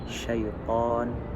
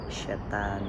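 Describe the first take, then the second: First: The last syllable has an o-like vowel. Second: The last syllable has an a vowel. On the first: This is the Arabic pronunciation. "Di dalam bahasa Arabnya" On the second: This is the Indonesian pronunciation. "dalam pengucapannya itu menjadi syaitan"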